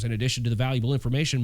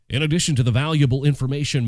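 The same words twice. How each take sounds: First: It is said in his normal speaking voice. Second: It is said in a radio announcer voice.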